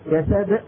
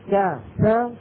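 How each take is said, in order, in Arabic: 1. الـ b الأخيرة تنتهي بهمزة. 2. تُخرج الـ b الأخيرة ولا يأتي بعدها شيء. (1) "شايفين كيف عم يختم بهمزة؟ هذا ما بيصح" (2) "ب ب وبعد منها ما في شيء"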